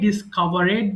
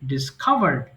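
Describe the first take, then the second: First: The ending is an extra 'id' syllable. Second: The ending is a plain d sound, no extra syllable. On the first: The speaker calls it wrong. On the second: The speaker calls it right.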